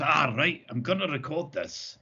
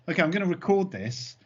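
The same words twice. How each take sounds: First: Imitating a friend's Scottish accent; retold line in a mock Scottish accent. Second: Said in the usual way. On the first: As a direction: put on a Scottish accent for the quote. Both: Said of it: "but in a Scottish accent".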